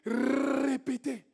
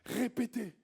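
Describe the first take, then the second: First: It is said insistently, African style. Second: It is said plainly, French style.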